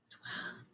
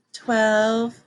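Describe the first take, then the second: First: Voiceless whispered twelve. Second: Said in the usual way. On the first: Shown as a demonstration. Teacher redoing the number she should have whispered, whispered. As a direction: breathe the word Twelve with no voice. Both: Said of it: "Oh, that was a whisper".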